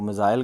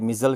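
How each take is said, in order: First: It is said with a British pronunciation. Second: It is said with an American pronunciation.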